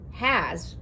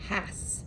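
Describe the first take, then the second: First: The word ends with a z sound. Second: The word ends with an s sound. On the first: "this is the word has" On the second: "It would make it huh, ah, s, has"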